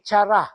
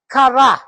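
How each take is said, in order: First: The word begins with a ch sound. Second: The word begins with a hard k sound. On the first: The speaker calls it wrong. "dili chara" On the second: The speaker calls it right. "the pronunciation of the word is kara"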